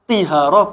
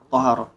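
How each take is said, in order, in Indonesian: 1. Vokal pertama adalah bunyi i. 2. Vokal pertama adalah bunyi a. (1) "bukan tihara"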